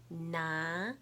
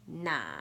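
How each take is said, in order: First: It is said with the second tone. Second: It is said with the third tone.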